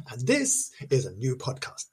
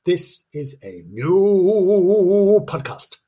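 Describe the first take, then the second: First: Said in the usual way. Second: Very slow, drawn-out spooky announcer voice; mock spooky announcer. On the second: Shown as a demonstration. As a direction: stretch every word like a horror trailer.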